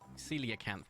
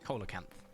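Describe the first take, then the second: First: The first syllable sounds like 'see'. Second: The first syllable sounds like 'co'. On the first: The speaker calls it right. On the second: The speaker calls it wrong.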